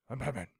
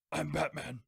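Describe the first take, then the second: First: Feeble whispered superhero impression; Batman. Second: Rough whispery superhero impression; Batman. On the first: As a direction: badly imitate a superhero in a mild whisper. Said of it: "like a whisper". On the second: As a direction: do a mock superhero growl. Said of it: "She's gonna do Batman".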